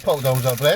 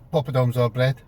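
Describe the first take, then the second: First: The phrase is shouted loudly and aggressively. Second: The phrase is said at a calm, normal volume. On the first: "He kind of shouts it, like, aggressively" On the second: "he doesn't say it"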